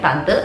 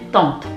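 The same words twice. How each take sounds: First: The word is pronounced with Indonesian sounds. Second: The word is pronounced with French sounds. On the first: "Sama kayak bahasa Indonesia tulisannya tante" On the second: "tapi dibacanya tante"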